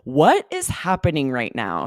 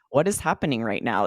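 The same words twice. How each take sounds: First: It is said with lively, varied intonation. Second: It is said in a flat monotone. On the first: The speaker calls it right. "so much life in the voice, so much intonation, so much energy" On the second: The speaker calls it wrong. "if you said this with a monotone"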